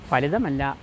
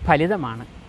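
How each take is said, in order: First: The word begins with an f sound. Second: The word begins with an aspirated p sound. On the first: The speaker calls it wrong. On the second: The speaker calls it right.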